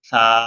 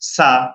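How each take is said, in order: First: The consonant is light and thin, with little air. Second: The consonant is forced, with extra air or hardness. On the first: The speaker calls it right. "বাতাস খুবই কম বের হবে ... খুব পাতলা করে পড়তে হবে" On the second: The speaker calls it wrong. "বাতাস বের করে ফেলেন অথবা শক্ত করেন ... এভাবে কি হয়, ভুল হয়"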